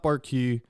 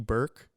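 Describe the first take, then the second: First: The name is said with two syllables. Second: The name is said with one syllable. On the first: The speaker calls it wrong. "it's not Barkey" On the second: The speaker calls it right. "a very fancy Burke"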